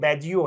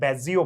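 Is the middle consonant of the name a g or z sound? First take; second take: g sound; z sound. First: The middle consonant is a g sound. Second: The middle consonant is a z sound. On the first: The speaker calls it right. "नहीं जी ही है, तो वो बैजियो है, नॉर्मल बैजियो है" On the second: The speaker calls it wrong. "मुझे अभी तक याद था कि बैजियो मतलब जेड"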